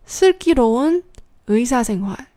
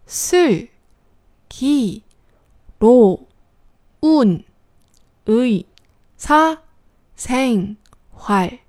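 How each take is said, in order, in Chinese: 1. 读得流畅，音节连起来读。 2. 读得慢，一个音节一个音节地读。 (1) "然后再连起来" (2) "先慢一点，一个字一个字的读"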